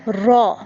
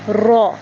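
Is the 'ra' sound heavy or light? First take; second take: heavy; heavy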